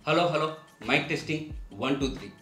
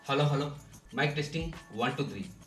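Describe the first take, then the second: First: The voice comes from inside a box with holes. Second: The voice comes from inside a closed box. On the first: "కన్నాలు ఉన్నటువంటి బాక్స్ని తల మీద పెట్టి మాట్లాడుతున్నాను" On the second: "మైక్రోఫోన్ని బయట పెట్టి బాక్సు లోపల తలబెట్టి మాట్లాడుతున్నాను"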